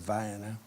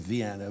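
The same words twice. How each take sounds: First: It is said the local Georgia way. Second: It is said the usual, non-Georgia way.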